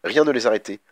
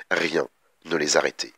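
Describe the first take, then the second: First: Said in the usual way. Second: "Rien" set apart by a pause, low falling close; pause after RIEN. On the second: A narrator's reading. Narrator closing the sisters' street-show passage, pause after "Rien", low.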